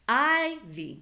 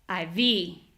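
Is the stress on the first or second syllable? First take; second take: first; second. First: The stress is on the first syllable. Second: The stress is on the second syllable.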